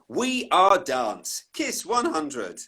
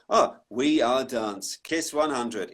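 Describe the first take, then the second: First: It is said with interest and energy. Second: It is said in a bored, detached way.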